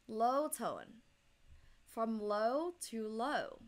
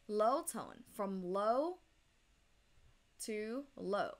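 Both takes have the same delivery.

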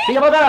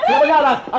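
First: High, loud shout to get out; shouting him out. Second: Loud shout breaking into a laugh. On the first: Wife shouting at Konstantinos to get out, loud shout. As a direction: yell at the unwanted visitor to leave. Eleni chasing him out of house. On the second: Wife chasing Konstantinos out, shouting and laughing. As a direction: yell it again through laughter. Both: Acted.

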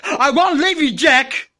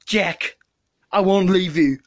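First: Overdramatic. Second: Said in the usual way. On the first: Acted. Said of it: "too dramatic".

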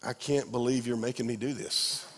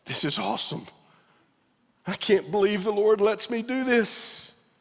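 First: Grouse under your breath; mock grumbling. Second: Mock delight. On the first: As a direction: worker forced into a bad day's task, sulky. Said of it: "other days it's like". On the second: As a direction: gush about a great job day. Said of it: "some days it's like".

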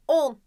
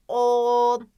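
First: Said in the usual way. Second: "on" with a long loud held o; stretched initial O. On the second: Shown as a demonstration. Teacher checking the first sound, long o in "on". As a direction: draw out the o of "on". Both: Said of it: "O sesiyle başladı".

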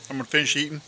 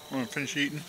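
First: Said in the usual way. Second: Talking through a mouthful of food; words mumbled round a bite; mouth full. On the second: Real, not acted. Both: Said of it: "Talking with my mouth full".

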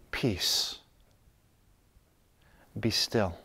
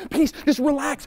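First: Low, soft, settled voice; calm. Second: High, frantic demand for peace; peace without calm. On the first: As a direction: speak peace gently from inner stillness. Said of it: "you can just calmly say". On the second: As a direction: plead for peace while badly rattled. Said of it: "speak that peace that you don't have". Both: Acted.

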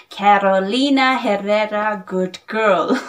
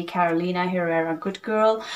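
First: Lightly mimicking a famous perfume reviewer's foreign accent; Jeremy Fragrance accent. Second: Said in the usual way. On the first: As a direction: say the brand name in a playful put-on reviewer's foreign accent. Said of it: "that is my Jeremy fragrance accent". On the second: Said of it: "but I don't say like that".

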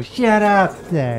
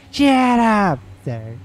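First: Slow, higher, louder barked catchphrase; South Park catchphrase. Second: Very slow, higher, louder cartoon bark in a put-on voice; South Park catchphrase. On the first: Retold or imitated. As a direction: stretch each word out like a cartoon bully. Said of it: "remember I used to go". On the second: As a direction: drag it out like a cranky cartoon guard. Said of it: "He goes".

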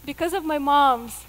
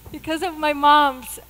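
No difference in how they are said.

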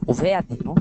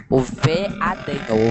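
First: Said in the usual way. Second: Veadinho stretched slowly, syllable by syllable; drawn out. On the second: Shown as a demonstration.

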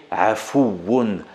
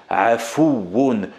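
The two takes are said the same way.

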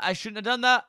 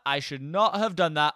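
First: High, loud panicked regret; shouting right after a mistake. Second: "not" split off and hit hard; calmer, stern self-correction; stress on not. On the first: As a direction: blurt it out in alarm. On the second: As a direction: spell out "should not" firmly. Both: Real, not acted.

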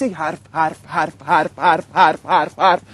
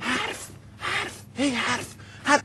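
First: Low, repetitive mock-talking drone; low monotonous parody of chatter; droning mockery. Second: Very soft, slow, spaced-out repetition; almost whisper each word on its own; hushed mock chatter. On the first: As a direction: chant the word low, over and over. Parodies endless radio-style talking. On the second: Mocking talk with back turned.

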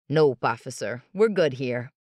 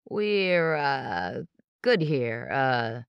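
First: Louder, brisk and smooth; quick denial. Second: Halting, with nervous uhs; tripping over words. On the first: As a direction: brush it off fast. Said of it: "Avery said". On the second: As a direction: stumble through it, caught out. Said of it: "Justin tripped over his words". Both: Acted.

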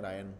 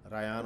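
First: रायन, RA-yan, quick two syllables; रायन the way English speakers say it, short a; short-a Rayan. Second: रायान, ra-YAAN, stretched middle vowel; रायान as the Urdu speaker says it, long aa; long-a Rayaan. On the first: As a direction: say रायन with a short clipped middle a. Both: Shown as a demonstration. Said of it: "वो बोलते हैं रायन".

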